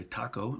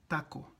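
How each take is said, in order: First: Taco with an aspirated t and gliding oh; English-style taco. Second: Taco with a soft unaspirated t and pure o; Spanish taco. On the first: Teacher mocking the English taco. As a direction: gringo taco. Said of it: "You don't say taco". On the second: Teacher showing the right Spanish taco. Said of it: "Like you say". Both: Shown as a demonstration.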